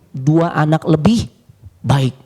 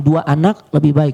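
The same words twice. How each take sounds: First: There is a pause after lebih, before baik. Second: There is a pause after anak, before lebih.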